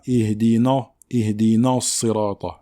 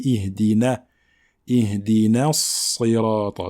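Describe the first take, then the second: First: "Ihdina" with a dark, heavy "na"; emphatic Nun, wrong. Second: "Ihdina" with a light, front "na", then heavy S in "Sirata"; thin Nun. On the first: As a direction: darken the "na" of "Ihdina" under the Sad's influence. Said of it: "Il ne faut pas la rendre grave". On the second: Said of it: "la lettre Nun reste amincie". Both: Shown as a demonstration.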